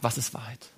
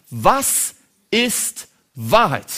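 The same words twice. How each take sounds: First: Much softer, lower Was ist Wahrheit; hushed question. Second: Very slow, stretched-out Was ist Wahrheit; drawn-out question. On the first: Pilate asks again quietly, almost to himself. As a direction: drop Was ist Wahrheit to a near murmur. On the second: Pilate slowly asks Jesus the question of all questions. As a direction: let Was ist Wahrheit hang, slowly weighing each word. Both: Acted.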